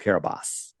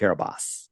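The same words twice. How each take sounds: First: The name is said in its native pronunciation. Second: The name is said in its native pronunciation.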